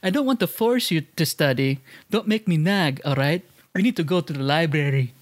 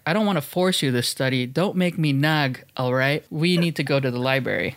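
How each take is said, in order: First: It is said in a Filipino accent. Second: It is said in the speaker's plain accent.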